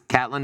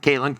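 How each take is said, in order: First: The first vowel sounds like 'cat'. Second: The first vowel sounds like 'Kate'. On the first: The speaker calls it right. "it was Catlin" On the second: The speaker calls it wrong. "not Caitlin"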